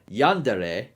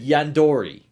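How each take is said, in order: First: The vowel before the final syllable is 'eh'. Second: The vowel before the final syllable is 'oh'. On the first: The speaker calls it right. "but Yandere is that" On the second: The speaker calls it wrong. "I don't know where he got the O R"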